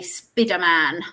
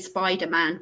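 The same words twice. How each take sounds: First: It is said with a Spanish accent. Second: It is said with a British accent.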